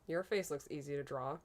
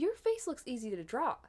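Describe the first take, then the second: First: It is said in a flat, insulting tone. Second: It is said in a friendly, complimentary tone. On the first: It is meant as an insult. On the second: It is meant as a compliment.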